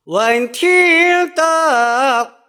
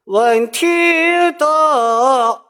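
First: 得 sung with lips spread, small mouth; flattened de. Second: 得 sung with the mouth opened too wide. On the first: Teacher shows the correct spread-lip 得. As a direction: pull the mouth corners wide on 得. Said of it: "是瘪着唱的". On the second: Teacher shows the wrong wide-mouth 得. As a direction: open wide on 得 to show the mistake. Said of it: "如果张得太大". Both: Shown as a demonstration.

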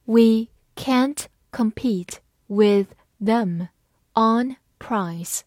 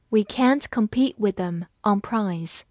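First: Slow, word by word; measured teacher's model reading. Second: Said in the usual way. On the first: Shown as a demonstration. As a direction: read slowly with pauses between words. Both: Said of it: "慢慢来读".

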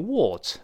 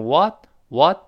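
First: WHAT with a rounded British "o"; British-accented WHAT, rounded vowel; British pronunciation. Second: WHAT with a wide-open American "ah"; American-accented WHAT, open "waht"; American pronunciation. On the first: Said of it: "英国人读成what". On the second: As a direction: say WHAT the American way, mouth bigger. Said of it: "美国读成what，what口型大一些". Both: Shown as a demonstration.

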